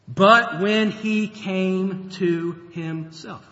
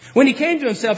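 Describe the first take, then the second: First: Each word drawn out slowly; slow emphatic reading. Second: Repeated louder and higher, punching When; emphatic repeat. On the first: Preacher lingering over the key verse, slow and weighty. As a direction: read it slowly so it sinks in. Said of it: "a great verse to underline". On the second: Preacher driving home the turning point, louder. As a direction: hit it again with force. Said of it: "What have I done?". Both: Shown as a demonstration.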